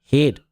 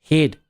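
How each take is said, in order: No difference in how they are said.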